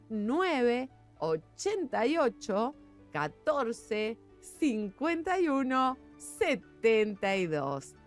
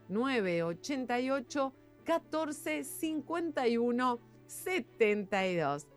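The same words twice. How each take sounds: First: It is read a little more slowly. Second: It is read at a normal speed.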